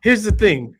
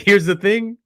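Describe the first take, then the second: First: Lee's "Here's the thing." quoted higher and louder, falling at the end; "Here's the thing." punched like a mock announcement, dropping at the end; quoting Lee. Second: Lee's "Here's the thing." quoted higher and louder, rising at the end; "Here's the thing." lifted up at the end like a teaser; quoting Lee again. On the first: Quoting Lee's short video, higher and louder with a falling end. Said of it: "it literally says". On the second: Retold or imitated. Quoting Lee's short video again, higher and louder with a rising end. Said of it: "he's like".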